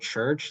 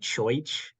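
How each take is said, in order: First: It is said in a modern American accent. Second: It is said in an old New England accent. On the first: "like we say it" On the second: "he would have said like choich"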